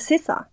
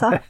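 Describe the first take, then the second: First: The name is said as two syllables. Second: The name is said as one syllable. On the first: The speaker calls it right. "Men du uttaler Sissa" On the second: The speaker calls it wrong. "hun heter ikke Sa"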